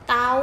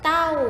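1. คำนี้มีเสียงสูง 2. คำนี้มีเสียงตก (1) "เสียงตรี" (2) "เสียงโท"

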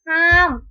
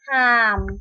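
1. คำว่า หาม ออกเสียงเป็นเสียงตก 2. คำว่า หาม ออกเสียงเป็นเสียงต่ำ

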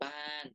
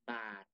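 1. พยางค์สุดท้ายมีเสียงตก 2. พยางค์สุดท้ายมีเสียงต่ำ (1) "ไม้โท" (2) "ไม้เอก"

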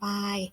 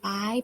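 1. พยางค์นี้ออกเสียงด้วยเสียงกลาง 2. พยางค์นี้ออกเสียงด้วยเสียงสูง (1) "จะเป็นเสียงสามัญ" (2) "ตรี"

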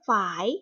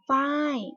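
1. คำว่า ฝาย ออกเสียงเป็นเสียงขึ้น 2. คำว่า ฝาย ออกเสียงเป็นเสียงตก (1) "คำว่าฝายเป็นเสียงจัตวา" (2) "คำว่าฝ้ายเป็นเสียงโท"

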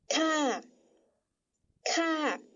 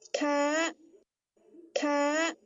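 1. 该音节念第三声调。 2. 该音节念第四声调。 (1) "就要念第三声调，念作咔咔" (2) "念第四声调，咔咔"

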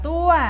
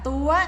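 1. พยางค์นี้มีเสียงตรี 2. พยางค์นี้มีเสียงตรี

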